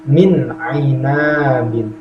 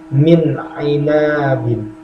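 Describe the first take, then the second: Both takes have the same delivery.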